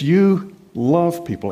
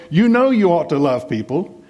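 First: Slow, with "You" pressed down hard; stress on YOU. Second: Said in the usual way. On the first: Shown as a demonstration. Preacher contrasting Paul's words with a mere duty, stressing "You". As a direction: land "You love people" slowly, leaning on "You". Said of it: "He says". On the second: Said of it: "He didn't just say".

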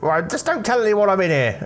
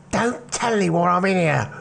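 First: Put-on much higher, light boyish voice; a jittery teen hiding in a warehouse; nervous teenage lad. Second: Higher, lightly voiced pleading lad; nervous teen whisper-plea. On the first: Jimmy pleads secrecy. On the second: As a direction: peek out of the crate and beg. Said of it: "and he goes".

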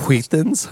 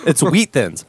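First: "Wheat Thins" with a puffed hw on "Wheat"; extra h sounds. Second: Said in the usual way. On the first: Retold or imitated. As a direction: imitate the ad, breathing hard through the H of "Wheat". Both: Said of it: "why are you pronouncing the H so much?".

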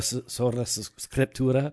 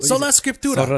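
First: Halting try at a rolled R in "Scriptura"; attempted rolled R. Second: "Sola Scriptura" with the R's rolled, Italian-style. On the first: Copying the co-host, a tentative rolled R in "Scriptura". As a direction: attempt "Sola Scriptura" with clumsily rolled R's. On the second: Showing the co-host how, R rolled in "Scriptura". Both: Shown as a demonstration. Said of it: "You gotta roll them R's".

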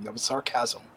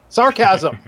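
First: Said in the usual way. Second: "Sarcasm" punched louder and higher; emphatic repeat. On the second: Real, not acted. Host repeating his disclaimer to co-hosts, "Sarcasm" stressed loudly. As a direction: hit "Sarcasm" hard as a one-word repeat.

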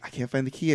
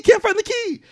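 First: Soft, understated mock despair; a touch of hopeless sorrow, acted; retold sadness. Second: Very high-pitched mock-frantic wail; imitating panic over a lost object; retold panic. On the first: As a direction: say it quietly, imitating a dejected boy. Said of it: "they're all very sad". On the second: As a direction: cry it out in hammed-up desperation.

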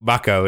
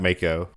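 First: "Mako" with an open ah, MAH-koh; first vowel of "Mako" as in father; correct pronunciation. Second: "Mako" with a long A, MAY-koh; first vowel of "Mako" as in make; rejected pronunciation. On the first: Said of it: "I'm assuming it's correct". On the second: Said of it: "not Mako". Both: Shown as a demonstration.

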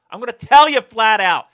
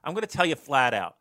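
First: Much higher and louder, yelling. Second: Said in the usual way. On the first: Real, not acted. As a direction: yell it out as a rant. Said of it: "Old man yells at tree".

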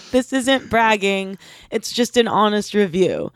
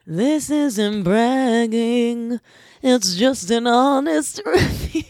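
First: Said in the usual way. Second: Drawn-out, mock-solemn restatement; slow deliberate repeat. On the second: Shown as a demonstration. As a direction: spell it out slowly with a grin. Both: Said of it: "And like I said".

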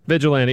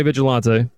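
First: Said in the usual way. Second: "Vigilante" ending in a wrong "-tay"; mispronounced word. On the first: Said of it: "trying to make words". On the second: Real, not acted. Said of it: "[name] trying to make words".

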